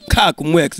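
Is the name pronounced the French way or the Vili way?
Vili. The name is pronounced the Vili way. "Mais sinon en Vili"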